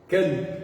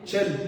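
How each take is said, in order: First: The word begins with a k sound. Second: The word begins with a ch sound. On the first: This is the classical form. "dessa forma, no clássico" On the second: This is a regional dialect form. "tem pessoas que falam o que?"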